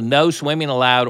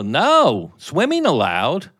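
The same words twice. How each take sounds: First: It is said as one phrase without a pause. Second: There is a pause after "no".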